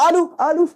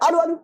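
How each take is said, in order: First: "আলু, আলু" high and held, the repeat set apart; drawn-out echo demo. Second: "আলু, আলু" with the repeat close behind; quick echo demo. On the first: Teacher shows a distant echo, "আলু, আলু" high and stretched. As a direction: call out "আলু", stretched, then echo it back. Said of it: "এই ব্যাপারটা এইভাবে শুনতে পাবে". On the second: Teacher shows an echo from a near wall, "আলু, আলু" in quick succession. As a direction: say "আলু" and echo it straight back. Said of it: "এরকম শুনতে পাবে". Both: Shown as a demonstration.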